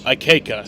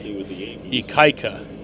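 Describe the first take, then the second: First: The middle syllable sounds like 'kay'. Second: The middle syllable sounds like 'kai'. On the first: The speaker calls it wrong. "That's definitely not correct" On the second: The speaker calls it right. "K A I is Kai"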